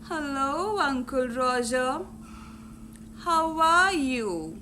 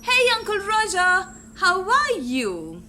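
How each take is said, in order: First: It is said in a low, bored tone. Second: It is said in a warm, cheerful tone.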